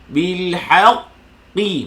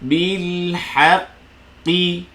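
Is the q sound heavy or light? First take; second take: heavy; light. First: The q sound is heavy and thick. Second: The q sound is light and thin. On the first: The speaker calls it wrong. "Dia tak akan jadi macam ni" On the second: The speaker calls it right. "Tengok mulut saya"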